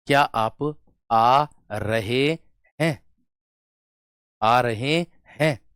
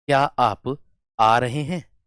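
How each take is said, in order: First: "क्या आप आ रहे हैं" with every word stretched; very slow, each word held long and set apart; drawn-out words. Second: Gentle, unhurried question; slow demo of an affectionate question; said lovingly. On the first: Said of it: "शब्द को खींच करके बोल दिया". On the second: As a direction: ask it slowly and kindly. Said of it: "एक तो प्यार से बोल दिया". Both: Shown as a demonstration.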